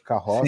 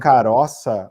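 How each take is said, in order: First: The middle r is a strong r sound. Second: The middle r is a light single tap. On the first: This is the standard Portuguese pronunciation. The speaker calls it right. "ao invés de" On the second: This is how the speaker said it as a child. The speaker calls it wrong. "falava muito errado"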